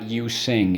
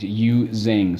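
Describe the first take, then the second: First: The second syllable starts with an s sound. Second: The second syllable starts with a z sound. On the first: The speaker calls it wrong. "it's not you sing" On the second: The speaker calls it right. "It's you zing"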